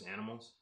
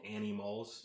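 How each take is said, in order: First: The words are said fast as one word. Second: The words are said slowly as two names. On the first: It sounds like the word animals. "if you say it fast" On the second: It sounds like a girl's name. "spelled like a girl's name"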